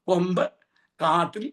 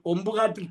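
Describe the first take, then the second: First: The two words are said clearly apart. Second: The two words are run together as one. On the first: The horns are caught in a thicket. The speaker calls it right. "എത്ര സ്ഫുടമായിട്ടാണ് വായിച്ചത്" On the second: It sounds like the name of a thicket place. The speaker calls it wrong. "കൊമ്പുകാടെന്നാണ് വായിച്ചത്"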